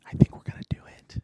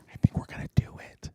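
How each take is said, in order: First: Faster, stronger whisper, hope rising; louder excited whisper. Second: Fast tense whisper; excited whisper. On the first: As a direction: whisper it again, more urgent. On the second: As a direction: whisper it, hardly daring to hope. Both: Real, not acted. Near winning the game.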